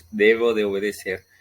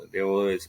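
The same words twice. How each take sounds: First: "debo" más fuerte; "debo" marcado y más fuerte; énfasis en debo. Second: Said in the usual way. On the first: Shown as a demonstration. ("debo" remarcado y sonoro)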